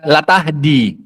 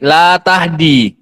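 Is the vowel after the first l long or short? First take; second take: short; long. First: The vowel after the first l is short. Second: The vowel after the first l is long. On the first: It affirms that guidance can be given. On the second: It denies that guidance can be given.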